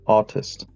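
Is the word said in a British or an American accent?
British. It is said in a British accent.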